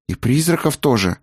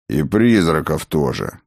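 First: Put-on higher-pitched boy's question; hesitant question. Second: Low, settled confirmation; confirming father. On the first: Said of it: "негромко спросил Артан". (негромкий вопрос высоким голосом) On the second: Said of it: "кивнул Сфайрат". (низкий утвердительный ответ) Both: A narrator's reading.

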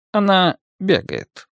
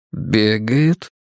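First: Вдруг добавил. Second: Said in the usual way. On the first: A narrator's reading. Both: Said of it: "внезапно добавил он".

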